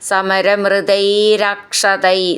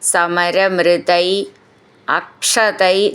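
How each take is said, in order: First: The two words are merged into one. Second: The two words are said separately.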